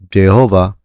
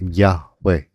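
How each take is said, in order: First: The name begins with a J sound. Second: The name begins with a Y sound. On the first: This is the older way the name was said. The speaker calls it wrong. "dati pronounced Jehovah" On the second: This is how scholars now understand the name. The speaker calls it right. "it's really more like a Y"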